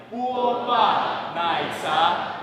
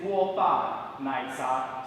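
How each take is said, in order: First: "guo ba nai za" chanted loud and very slow, rising at the end; calling the whole audience to chant along; group chant. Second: "guo ba nai za" slow and even, each syllable set apart; teacher modelling the phrase for the room; slow model for repeating. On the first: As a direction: lead the crowd in singing "guo ba nai za". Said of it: "So everybody". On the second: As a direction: lay out "guo ba nai za" slowly for them to copy. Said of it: "repeat after me". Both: Shown as a demonstration.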